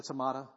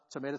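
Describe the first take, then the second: First: "tomato" with middle vowel as in "father"; broad a pronunciation. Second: "tomato" with middle vowel as in "day"; long a pronunciation. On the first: Preacher joking about two ways of saying words, "tomato" as tuh-MAH-toh. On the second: Preacher joking about two ways of saying words, "tomato" as tuh-MAY-toh. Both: Shown as a demonstration. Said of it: "however you say it".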